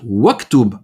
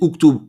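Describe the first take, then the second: First: The initial vowel drops, linking with a w sound. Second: The word starts with a glottal stop and u. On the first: The word follows another word in the sentence. "si tu le commences pas, tu vas dire waktub ... Tu le prononceras pas" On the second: The word begins the sentence. "Si tu commences la phrase, tu dis uktub ishrab"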